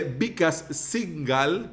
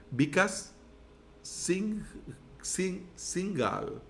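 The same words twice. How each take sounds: First: Singhal said as written in Spanish, sin-GAL; mispronounced name. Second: Singh, Singhal sounded out slowly and softly; careful name correction. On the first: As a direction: Singhal read plainly with Spanish sounds. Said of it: "yo sé que no se pronuncia así". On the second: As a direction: Singhal tried again, slow and hesitant. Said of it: "no se pronuncia así". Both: Shown as a demonstration.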